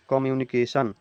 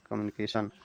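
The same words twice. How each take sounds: First: कम्युनिकेशन broken into five distinct syllables. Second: Said in the usual way. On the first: Shown as a demonstration. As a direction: give every syllable of कम्युनिकेशन its own beat. (कम्युनिकेशन को पांच हिस्सों में तोड़कर बोलें) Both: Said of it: "इसको जैसे ही आप बोलिएगा".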